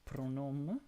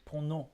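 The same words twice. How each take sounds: First: "pronom" with the final M sounded, rising at the end; M pronounced. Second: "pronom" said French-style, without sounding the M; silent final M. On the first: Streamer trying out the player's name, "pronom" with its M sounded. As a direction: draw out "pronom" and close on the M. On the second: Streamer correcting the name, "pronom" with a silent M. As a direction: end "pronom" on a nasal vowel, no M. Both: Shown as a demonstration. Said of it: "don't even need to say the M".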